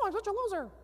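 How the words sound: It is said in a high, squeaky cartoon voice. The negative thought becomes silly and loses power.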